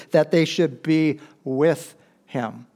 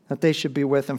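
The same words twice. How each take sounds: First: Slowly, each word weighed, stress on they; slow and deliberate. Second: Said in the usual way. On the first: Shown as a demonstration. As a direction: draw out That they should be with him, leaning on they.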